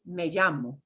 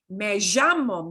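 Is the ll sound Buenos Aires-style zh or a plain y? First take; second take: plain y; Buenos Aires zh. First: It has a plain y sound, not zh. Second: It has the Buenos Aires zh sound.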